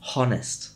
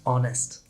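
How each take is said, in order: First: The H sound is pronounced. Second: The H sound is silent. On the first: The speaker calls it wrong. "not honest" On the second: The speaker calls it right. "just honest"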